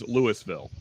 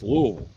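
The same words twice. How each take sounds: First: Each syllable is said clearly as it is spelled. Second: The syllables run together into one blended sound. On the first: This is how someone not from the area says it. The speaker calls it right. "nobody says Louisville" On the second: This is how locals say it. The speaker calls it wrong. "Everybody says Louisville. It's just it's kind of just one sound"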